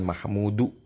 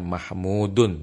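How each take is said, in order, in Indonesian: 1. Kata itu berakhir pada vokal saja. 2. Kata itu berakhir dengan bunyi n tambahan. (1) "bukan mahmudu" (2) "dibaca mahmudun bertanwin"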